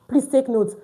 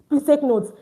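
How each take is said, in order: No difference in how they are said.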